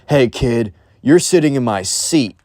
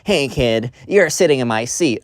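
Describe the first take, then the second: First: It sounds like a scary, tough adult. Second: It sounds like a young seventh-grade kid.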